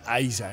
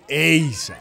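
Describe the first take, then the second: First: The name is pronounced the English way. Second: The name is pronounced a non-English way. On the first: "en inglés sería Aiza" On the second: "aquí fue Eiza"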